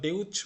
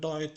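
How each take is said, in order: First: The vowel sounds like 'eh-oo'. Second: The vowel sounds like 'oy'. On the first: The speaker calls it wrong. "এটা কি আমরা ডেউচ বলছি?" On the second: The speaker calls it right. "আমরা এটা ডয়েচ বলছি"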